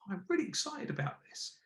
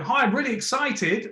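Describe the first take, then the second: First: Much softer, lifted on really; contained energy, stress on really; controlled excitement. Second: High, louder gushing hi; shouty, over-the-top excitement; overexcited hi. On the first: Coach demoing controlled excitement for Sarah. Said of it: "putting the tone and the emphasis in the delivery". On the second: Coach demoing the overdone excited greeting for Sarah. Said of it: "Instead of going". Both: Shown as a demonstration.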